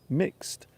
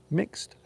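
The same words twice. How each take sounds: No difference in how they are said.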